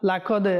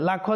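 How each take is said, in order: First: The middle consonant is a deep back q. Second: The middle consonant is a plain front k. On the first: The speaker calls it right. "লাকদ এটা কাফ না" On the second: The speaker calls it wrong. "লাকদ বললে হবে না"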